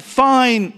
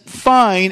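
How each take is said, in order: First: "fine" said brightly, lifted up high; a cheerful, upbeat "fine"; happy fine. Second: "fine" said curt and clipped, falling; a short, cold "fine"; sharp negative fine. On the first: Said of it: "in a happy tone". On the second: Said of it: "in a sharp kind of negative tone". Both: Shown as a demonstration.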